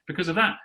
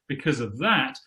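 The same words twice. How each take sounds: First: The phrase is said plainly, without extra emphasis. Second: The phrase is said with extra emphasis.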